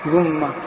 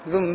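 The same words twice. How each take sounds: First: The word ends with a short a vowel. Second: The word ends with a short i vowel. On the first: The ending avoids two consonants meeting. "رواية الفتح ذم" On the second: The ending is the basic way to avoid two consonants meeting. "ثالثا الكسر هو الأصل"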